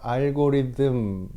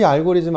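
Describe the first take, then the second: First: The ending is said with an English 'th' sound. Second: The ending is said with a Korean 'zm' sound. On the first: "th니까 알고리즘" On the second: "그냥 즘이라고 할게요"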